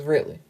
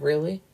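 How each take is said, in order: First: "Really" falling at the end, as an answer; confirming "Really". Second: "Really?" rising at the end, as a question. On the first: Woman confirming her pregnancy, "Really" falling in reassurance. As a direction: answer "Really" with a settled downward tune. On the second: Man checking the pregnancy news, "Really?" rising in question. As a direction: ask "Really?" with a lift at the end. His question, echoed by her answer. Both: Retold or imitated.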